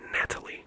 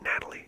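First: The T in the middle is crisp and strong. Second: The T in the middle is soft and weak. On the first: The speaker calls it right. "You really gotta put the emphasis on the T and Natalie" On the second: The speaker calls it wrong. "It's not Natalie"

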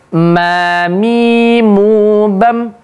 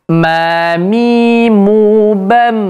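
The two takes are said the same way.

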